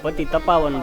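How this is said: The break falls after the syllables pa-ti. The speaker calls it wrong. "ઘણા એવું બોલે પતિ તપાવન બોલે છે, પણ શબ્દ ખરેખર એવો નથી"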